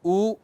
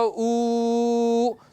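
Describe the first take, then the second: First: The vowel is held for a short time. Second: The vowel is held for a very long time. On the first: "एक बार ऐसे ऊ, फिर बोला एक मात्रा" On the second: "फिर लंबे समय तक बोला ऊ, तो ये तीन मात्रा"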